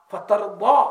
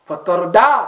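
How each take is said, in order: First: فَتَرْضَى with a heavy, dark ḍād; careful Quranic ḍād in فَتَرْضَى; correct emphatic ḍād. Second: فَتَرْضَى with a light "da" for the ḍād; flattened ض, like a simple d, in فَتَرْضَى; mispronounced plain d. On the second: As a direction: say فَتَرْضَى wrongly, ending in a plain "da". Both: Shown as a demonstration. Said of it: "دعات اور دا پڑھ دیا".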